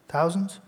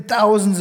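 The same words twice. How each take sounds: First: "thousands?" softly with a rising, questioning end; second-guess "thousands?" quietly, pitch lifting at the end; "thousands?" as a soft, doubtful check on yourself; self-doubting question. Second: Said in the usual way. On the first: Real, not acted. Questions own word just said.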